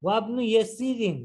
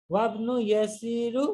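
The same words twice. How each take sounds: First: ইয়াসিরিন ending in -in, falling; ওয়াবনু ইয়াসিরিন with the proper in ending; correct ending. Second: ইয়াসিরু said with a wrong u ending, slowly; ওয়াবনু ইয়াসিরু, end on u as the trick; deliberate wrong ending. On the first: (সঠিক উচ্চারণ ইয়াসিরিন) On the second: (ভুল উচ্চারণ ইয়াসিরু) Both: Shown as a demonstration. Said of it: "আমি trick করেছি".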